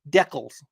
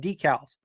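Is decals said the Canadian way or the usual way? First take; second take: Canadian; usual. First: The word is said the Canadian way. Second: The word is said the usual, non-Canadian way. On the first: "as my friends to the north in Canada say" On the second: "So it's made for uh"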